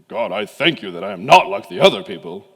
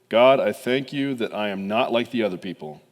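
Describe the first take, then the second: First: It is said in a put-on Pharisee voice. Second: It is read in a plain voice.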